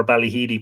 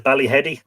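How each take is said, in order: First: "Ballyheedy" with HEE as in heed; "Ballyheedy" said bally-HEE-dee; long-ee pronunciation. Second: "Ballyheady" with HED as in head; "Ballyheady" said bally-HED-ee; short-e pronunciation. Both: Shown as a demonstration. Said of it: "to the pronunciation".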